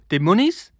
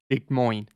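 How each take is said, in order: First: The name ends with a 'neez' sound. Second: The name ends rhyming with 'groin'. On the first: The speaker calls it wrong. "what's that place called? Demonies?" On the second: The speaker calls it right. "Like groin, but with an M"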